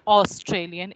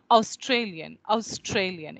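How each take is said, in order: First: AUSTRALIAN opened with a plain single "aw" vowel; wrong version demo. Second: AUSTRALIAN opened with a gliding "ow" vowel; Australian pronunciation demo. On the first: Teacher shows students what to avoid, plain first vowel. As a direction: say AUSTRALIAN starting "oss", no glide. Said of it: "It is not Australian". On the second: Teacher imitates how Australian people say it, gliding first vowel. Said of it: "If you listen to Australian people". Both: Shown as a demonstration.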